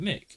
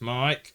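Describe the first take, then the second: First: The vowel is short, rhyming with kick. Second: The vowel is long, rhyming with like. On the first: The speaker calls it wrong. "I always called it Mick" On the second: The speaker calls it right. "it's Mike"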